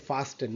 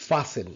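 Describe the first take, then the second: First: FASTEN with the t sounded; common mistaken pronunciation. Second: FASTEN with no t, as "fah-sun"; silent t. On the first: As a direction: say fasten as "fas-ten". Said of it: "আমরা অনেকে fasten". (fasten-এর ট উচ্চারণ করে "ফাস্টেন") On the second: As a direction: drop the t in fasten. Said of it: "not fast, it's a". (fasten-এর ট বাদ দিয়ে "ফাসেন") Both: Shown as a demonstration.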